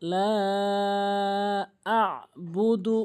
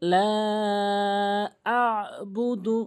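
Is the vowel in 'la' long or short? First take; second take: long; long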